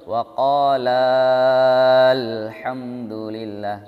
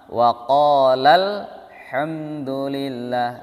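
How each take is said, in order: First: The vowel before the joined 'l' is drawn out long. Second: The vowel before the joined 'l' is short. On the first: The speaker calls it wrong. "Jangan dibaca panjang dulu" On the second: The speaker calls it right.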